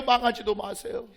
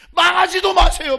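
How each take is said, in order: First: Said in the usual way. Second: High, very loud preaching cry; full-force pulpit shout; shouted exhortation. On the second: Real, not acted. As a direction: thunder the warning at the congregation. Exhorts congregation, then repeats lower.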